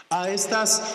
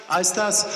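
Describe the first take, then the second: No difference in how they are said.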